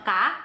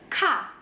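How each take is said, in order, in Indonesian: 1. Konsonannya polos, tanpa hembusan napas. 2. Konsonannya punya hembusan napas yang kuat. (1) "Beda ya sama ka" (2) "ini ka"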